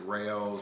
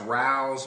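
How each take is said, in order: First: The name is said as two syllables, 'ray-oh's'. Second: The name is said as one syllable, like 'rouse'. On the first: This is how many people commonly say it. "a lot of people pronounce it Raos, R A O" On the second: This is the proper pronunciation. "I think it's actually pronounced Rouse"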